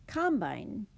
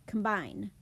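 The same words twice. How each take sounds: First: "combine" with the stress on "com"; "combine" as a noun, stressed on "com". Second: "combine" with the stress on "bine"; "combine" as a verb, stressed on "bine". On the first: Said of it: "as a noun". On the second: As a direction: say "combine" with "com" reduced to a schwa. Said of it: "As a verb". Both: Shown as a demonstration.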